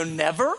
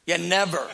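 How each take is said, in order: First: Rising disbelieving never, lightly voiced; incredulous question. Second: Said in the usual way. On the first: A listener questions the never-ending worship, mildly incredulous. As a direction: echo the word back, mildly amazed. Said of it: "They go". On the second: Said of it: "I go".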